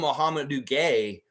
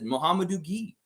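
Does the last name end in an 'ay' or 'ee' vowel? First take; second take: ay; ee. First: The last name ends with an 'ay' vowel. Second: The last name ends with an 'ee' vowel. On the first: The speaker calls it wrong. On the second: The speaker calls it right. "It said Muhammadu Gee"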